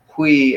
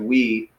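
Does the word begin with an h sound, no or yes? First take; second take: yes; no. First: It begins with a breathy h sound. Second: It begins directly with a w sound. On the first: "we got the rough breathing mark, and all that does is kind of put an H sound on it" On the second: "if it was a smooth breathing mark ... it would be just we"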